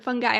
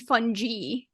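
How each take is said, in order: First: The g is a hard g sound. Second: The g is a soft g sound.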